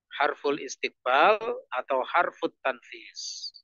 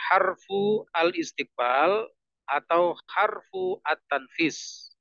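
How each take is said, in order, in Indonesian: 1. Kata-kata disambung menjadi bentuk yang tersambung. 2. Setiap kata dibaca terpisah, dengan akhiran lengkap.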